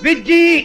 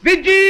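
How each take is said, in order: First: The name is said loudly. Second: The name is said very loudly. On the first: "గట్టిగానండి" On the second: "ఇంకా గట్టిగా"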